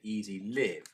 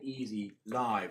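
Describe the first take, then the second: First: The word live rhymes with give. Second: The word live rhymes with five.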